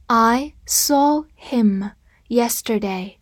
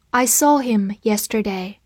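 First: I saw him yesterday read slowly, word by word. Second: Said in the usual way. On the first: Shown as a demonstration. Teacher reading slowly for the class to repeat. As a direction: read it slowly for students to follow. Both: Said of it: "跟着我慢读一遍".

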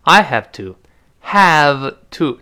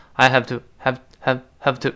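First: Said in the usual way. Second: "have to" passed over lightly and quickly; unstressed weak form. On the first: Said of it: "这个have元音". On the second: Shown as a demonstration. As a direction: reduce the vowel in "have", no stress on it. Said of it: "不重读了吗，一带而过".

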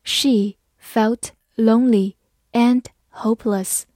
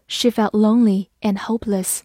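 First: Slow, word by word with pauses; slow reading. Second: Said in the usual way. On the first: Shown as a demonstration. Teacher models the example for learners, slow and separated. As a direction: read slowly, each word on its own. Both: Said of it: "慢慢来读".

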